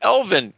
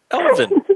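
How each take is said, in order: First: Said in the usual way. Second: Elvin sung out much higher with a fall; mock high Elvin; squeaky high Elvin. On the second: Shown as a demonstration. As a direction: pitch Elvin up high like an elf. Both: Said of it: "E L V I N".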